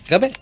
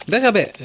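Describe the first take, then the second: First: Said in the usual way. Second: High, stressed ده غباء; mocking stress. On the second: Real, not acted. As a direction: scold yourself sharply. (نبرة عالية تلوم النفس)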